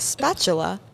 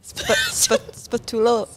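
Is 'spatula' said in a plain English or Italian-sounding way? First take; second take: plain English; Italian-sounding. First: It is said with a plain English pronunciation. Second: It is said with an Italian-sounding pronunciation. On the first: "the word was spatula" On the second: "but he pronounced it spatula"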